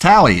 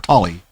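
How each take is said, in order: First: The first vowel sounds like the one in tally. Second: The first vowel sounds like the one in doll. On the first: The speaker calls it right. "It's Tally. It's always pronounced Tally in the game" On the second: The speaker calls it wrong. "or Tolly"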